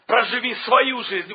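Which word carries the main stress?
свою. The stress falls on the word свою. Live your own life, not someone else's. The speaker calls it right. "ударение на слово свою"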